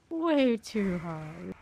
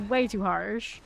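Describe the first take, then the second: First: Slow drawn-out repeat. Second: Said in the usual way. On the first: Shown as a demonstration.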